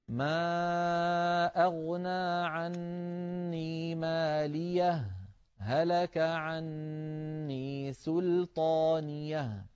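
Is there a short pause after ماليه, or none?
pause. A brief silent pause follows ماليه without breathing.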